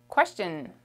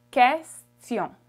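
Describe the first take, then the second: First: Said in the usual way. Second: "question" in French, "kes-tyon" with silent U; French pronunciation. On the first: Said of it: "Question in French is". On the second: Shown as a demonstration. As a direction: say "question" firmly, louder, U silent. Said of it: "You don't pronounce the U".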